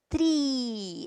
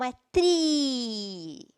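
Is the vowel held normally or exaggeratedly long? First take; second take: normally; exaggeratedly long. First: The vowel is long but natural. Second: The vowel is stretched out in an exaggerated way. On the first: "você pronuncia ela mais longa" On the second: "Eu vou forçar um pouquinho para vocês entenderem a pronúncia"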